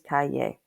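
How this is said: The double L sounds like an English y. "a double L usually sounds like an English Y"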